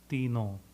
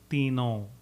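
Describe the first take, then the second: First: The word ends with a nasalized vowel. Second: The same.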